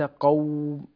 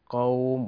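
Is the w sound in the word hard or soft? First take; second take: hard; soft. First: The w sound is pressed hard. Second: The w sound is soft and easy. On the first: The speaker calls it wrong. "وليس قوم، قوم، أشدد على الواو" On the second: The speaker calls it right. "سمي لينا لأنه يخرج بلين وسهولة"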